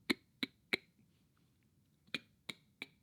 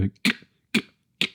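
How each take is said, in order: First: Soft clean "k" with little air; light crisp k. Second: "k" with too much force and air; the wrong, heavy k. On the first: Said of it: "Crisp and not too heavy". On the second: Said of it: "not too heavy". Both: Shown as a demonstration.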